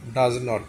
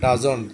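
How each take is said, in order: First: Two separate words are said, with no contraction. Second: The words are joined into one contracted word. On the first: "ডাজ তারপরে নট" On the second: "একসাথে মিলে হয় ডাজন্ট"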